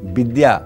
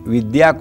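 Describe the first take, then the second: First: The word begins with a 'b' sound. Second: The word begins with a 'v' sound. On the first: "व की जगह ब लिखा हुआ है" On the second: "व की जगह ब लिखा हुआ है"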